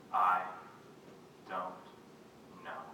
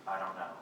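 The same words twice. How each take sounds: First: "I ... don't ... know", long pause after each word; each word alone. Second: Said in the usual way. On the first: Acted. Poet voices mother after strokes, "I don't know" word by halting word. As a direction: let each word of "I don't know" come hard, on its own. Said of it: "each sound on its own".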